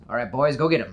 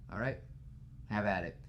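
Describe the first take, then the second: First: Gang boss order. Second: Said in the usual way. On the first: Retold or imitated. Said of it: "And Toombs goes". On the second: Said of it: "Like, just the whole".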